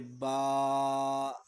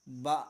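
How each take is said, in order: First: The syllable is stretched out too long. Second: The syllable is cut off with a jerk. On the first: "ये ज़्यादा खींचना हो गया" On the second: "झटका देते हैं"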